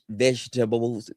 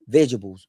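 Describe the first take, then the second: First: The word is said in a Caribbean accent. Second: The word is said in a plain accent.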